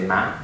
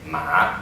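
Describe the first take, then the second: First: The word is said with a higher pitch. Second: The word is said with a lowered pitch. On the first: It means mom. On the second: It means horse.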